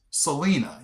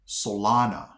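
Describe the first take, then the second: First: Selena like the singer, "suh-LEE-nuh"; common mispronunciation. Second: Solana as "suh-LAH-nuh"; actual local pronunciation. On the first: What everybody would call the town, suh-LEE-nuh. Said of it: "probably would have called this". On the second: Correcting the common guess, local suh-LAH-nuh. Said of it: "It's actually pronounced". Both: Shown as a demonstration.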